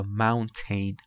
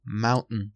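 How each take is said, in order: First: Mountain with a clear T and vowel; full ending. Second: Mountain with the last vowel swallowed; reduced ending. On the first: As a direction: say mountain as "MOUN-ten". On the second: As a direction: say mountain as "MOUN-n". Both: Shown as a demonstration. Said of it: "mountain یا mountain".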